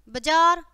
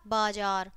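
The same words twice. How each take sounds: First: बाजार said "bajaar", short first "a"; quick "ba" at the start of बाजार; louder mistaken बाजार with a schwa first; wrong short vowel. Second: बाजार said "baajaar", long first "aa"; lower, softer बाजार opening on "baa"; correct long vowel. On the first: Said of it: "पहले हमारी अशुद्ध शब्द है". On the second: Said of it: "और फिर शुद्ध है". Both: Shown as a demonstration.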